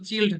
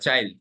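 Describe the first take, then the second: First: The vowel is a short 'i' sound. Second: The vowel is a long 'eye' sound. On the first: The speaker calls it wrong. "এটা কিন্তু চিল্ড না" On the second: The speaker calls it right.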